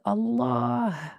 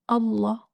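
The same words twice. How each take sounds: First: The word ends with an audible breathy h. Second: The word ends on a vowel without h. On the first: The speaker calls it right. "don't forget the sound of the ha at the end" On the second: The speaker calls it wrong. "not Allah, like some people say"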